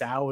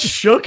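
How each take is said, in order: First: The name sounds like 'Sal'. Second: The name sounds like 'Shook'. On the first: The speaker calls it wrong. "I think his name is Sal, is how you say it" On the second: The speaker calls it right. "That's Shook"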